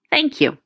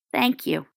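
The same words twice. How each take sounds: First: Said in the usual way. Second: Much softer, hushed thanks; soft whisper. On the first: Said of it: "Just say". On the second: A narrator's reading. Remus quietly thanking Sirius, softly murmured. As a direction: barely breathe the words out. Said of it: "Remus whispered".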